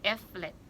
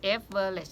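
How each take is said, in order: First: The middle syllable is dropped, giving two syllables. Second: The middle syllable is pronounced, giving three syllables. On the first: The speaker calls it right. "สองคำเท่านั้นนะคะ" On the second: The speaker calls it wrong. "ไม่ใช่ average"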